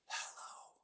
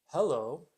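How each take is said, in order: First: It is said as a forceful whisper. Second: It is said in a normal voice.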